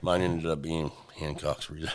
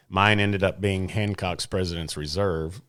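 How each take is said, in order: First: Low, soft mocking imitation of a letdown; mock disappointed. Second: Unenthused, low-key admission; disappointed. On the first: Teasing co-host over his whiskey pick, mock disappointed. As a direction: mimic them sounding glum, lower and quieter. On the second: Real, not acted. Recalling his pick from the tasting, sounding mildly disappointed. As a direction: say it with a touch of letdown. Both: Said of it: "Like you're disappointed you picked that".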